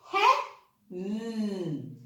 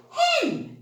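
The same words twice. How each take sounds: First: "Hen" split into "he", pause, held "n"; sounded out. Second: Said in the usual way. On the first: Shown as a demonstration. Teacher helping children read, "Hen" broken into sounds. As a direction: sound out "Hen", humming its last sound. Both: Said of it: "can you help me read the words".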